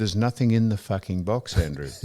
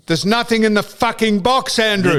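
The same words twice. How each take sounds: First: Mock-polite, lower and softer, with box still said bluntly. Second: Raised, loud indignant line with box lifted high; angry retold swear. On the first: Claiming he was polite to the shop man, mock-polite and softer. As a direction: sweet-talk the insult as if being courteous. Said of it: "I was very polite". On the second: Telling the pool shop man his box is empty, raised and angry. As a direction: let him have it over the phone. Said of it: "You didn't swear".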